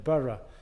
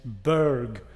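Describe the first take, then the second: First: It is said as two syllables, 'borough'. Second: It is said as one syllable, 'berg'. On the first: This is the Scottish way of saying it. The speaker calls it right. "rather than Borough" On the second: This is the German way of saying it. The speaker calls it wrong. "they kept pronouncing it Berg"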